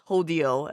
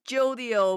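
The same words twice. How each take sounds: First: The name begins with an H sound. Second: The name begins with a J sound.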